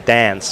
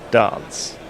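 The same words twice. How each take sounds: First: The word is said in an Australian accent. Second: The word is said in an English accent. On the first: The speaker calls it wrong. "you've been in Australia a long time because you say dance" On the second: The speaker calls it right. "like a English gentleman should"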